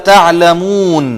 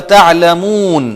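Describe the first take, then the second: The two takes are said the same way.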